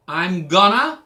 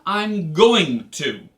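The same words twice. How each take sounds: First: Loud gonna run together; casual gonna. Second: Very slow, every syllable spelled out; full careful going to. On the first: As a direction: say it the lazy American way. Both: Shown as a demonstration.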